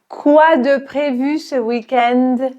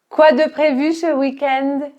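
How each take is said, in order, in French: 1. La phrase est prononcée lentement. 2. La phrase est prononcée à vitesse normale. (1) "On va la répéter dans un premier temps lentement" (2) "on va répéter de manière normale"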